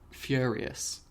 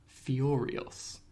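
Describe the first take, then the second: First: It is said in a Liverpool Scouse accent. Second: It is said in a posh upper-class accent. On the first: This is the speaker's own regional way of speaking. The speaker calls it wrong. "rather than saying" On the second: This is the recommended refined way of speaking. The speaker calls it right. "you should say"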